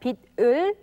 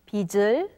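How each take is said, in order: First: The final consonant keeps its standalone sound. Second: The final consonant changes its sound before 을. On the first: The speaker calls it wrong. "rather than" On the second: The speaker calls it right.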